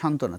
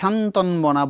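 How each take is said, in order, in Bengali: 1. 'nt'-এর পরে কোনো 'b' ধ্বনি উচ্চারিত হয় না। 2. 'nt'-এর পরে একটি 'b' ধ্বনি উচ্চারিত হয়। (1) "বয়ের উচ্চারণ থাকবে না" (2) "এটাকে শান্তনবনা বলি আমরা, বলি না"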